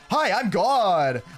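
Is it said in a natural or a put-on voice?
put-on. It is said in a put-on character voice.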